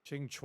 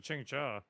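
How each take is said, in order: First: "Qingque" ending in "chwa"; first pronunciation. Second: "Qingque" ending in "cha"; second pronunciation. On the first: Streamer checking a character's name, "Qingque" said as "ching-chwa". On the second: Streamer offering the other reading, "Qingque" said as "ching-cha". Checking two pronunciations of a name. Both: Shown as a demonstration.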